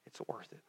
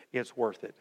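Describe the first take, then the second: First: Whispered, much softer, lower; a whispered echo of the line before. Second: Said in the usual way. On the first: Shown as a demonstration. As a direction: breathe it out as a hushed whisper. Repeated line, second whispered.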